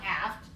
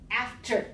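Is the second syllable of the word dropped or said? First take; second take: dropped; said. First: The second syllable is dropped. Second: The second syllable is clearly said. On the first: The speaker calls it wrong. "Not aft" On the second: The speaker calls it right. "Make sure you have the second syllable"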